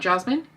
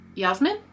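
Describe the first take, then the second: First: The name begins with a J sound. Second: The name begins with a Y sound. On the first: This is the English way of saying the name. "Not Jasmine?" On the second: This is the German way of saying the name. "is it Yasmin?"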